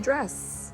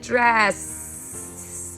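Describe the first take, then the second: First: The final S sound is short. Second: The final S sound is stretched out long. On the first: The speaker calls it right. "We say dress, right? And you don't stretch the S out" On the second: The speaker calls it wrong. "I had a kid, a few kids who've done that. They're like, dress. You can hear it"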